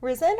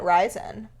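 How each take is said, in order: First: "Risen" with a short i, like "rizzen"; short-i pronunciation. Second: "risen" with a long i, like "rise-en"; long-i pronunciation. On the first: Co-host puzzling over a candy's name, "Risen" said with a short i. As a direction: say "Risen" to rhyme with "wizen". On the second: Co-host offering another candy name, "risen" said with a long i. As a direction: say "risen" as "RYE-zen". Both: Shown as a demonstration. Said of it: "Or is it risen".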